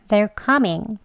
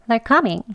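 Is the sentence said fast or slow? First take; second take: slow; fast. First: The sentence is spoken slowly. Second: The sentence is spoken quickly. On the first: "천천히 해볼게요" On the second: "빨리요"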